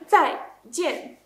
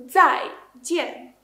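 Both takes have the same delivery.

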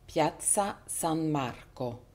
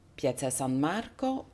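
First: It is spoken slowly. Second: It is spoken at normal speed. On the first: "lue d'abord lentement" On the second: "et ensuite à la vitesse normale"

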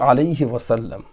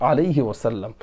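Both takes have the same delivery.

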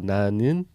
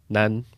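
First: The word is said with two full syllables. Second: The word is shortened to one quick syllable. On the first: "Em vez de falar nanin" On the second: "pode falar nan. Fica mais, mais rápido"

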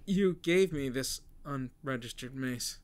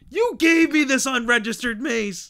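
First: It is said flatly, without emotion. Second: It is said with lots of emotion.

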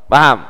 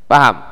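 No difference in how they are said.

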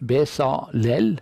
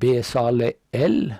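First: The stress is not on the final syllable. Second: The stress is on the final syllable.

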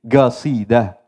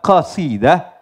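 First: It starts with a hard g sound. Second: It starts with a deep throat q sound. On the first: "Ketika mengucap qaf dengan gaf. Sehingga qasidah menjadi gasidah" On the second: "mereka menyebut qaf, huruf qaf, itu dengan huruf, dengan ga"

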